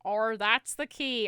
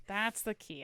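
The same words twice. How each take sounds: First: Loud, stretched fake-Aussie R; mock Australian accent. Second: Said in the usual way. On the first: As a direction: drawl it in a bad Australian accent. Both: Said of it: "add an R to the end of your words".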